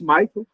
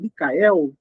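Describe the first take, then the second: First: The name is said the American English way. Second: The name is said the Portuguese way. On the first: This is how the name is meant to be said. The speaker calls it right. "pronuncia-se Michael, né? Do jeito americano mesmo" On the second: This is how people often say the name. The speaker calls it wrong. "As pessoas é Michael, Micael"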